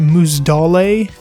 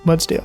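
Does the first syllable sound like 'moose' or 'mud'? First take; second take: moose; mud. First: The first syllable sounds like 'moose'. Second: The first syllable sounds like 'mud'. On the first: The speaker calls it wrong. "I actually called it Moosdale" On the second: The speaker calls it right. "Yeah, I said that right"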